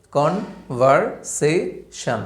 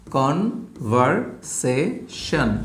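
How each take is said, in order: First: কনভারসেশন in four slow, separated parts; syllable by syllable. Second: কনভারসেশন stretched very slowly into four parts; syllable by syllable. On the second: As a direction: draw out কনভারসেশন part by part. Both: Shown as a demonstration. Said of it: "উচ্চারণ করতে পারছি চারবারে".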